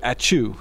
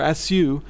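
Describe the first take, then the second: First: The middle consonant is a 'ch' sound. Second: The middle consonant is a plain 's' sound. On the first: The speaker calls it right. "she corrected my pronunciation" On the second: The speaker calls it wrong. "So I said "asu""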